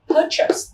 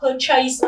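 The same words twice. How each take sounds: First: The second syllable is a weak 'chus'. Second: The second syllable sounds like full 'chase'. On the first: The speaker calls it right. "không đọc là chase mà chúng ta đọc là purchase" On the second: The speaker calls it wrong. "có rất là nhiều bạn hay đọc là purchase"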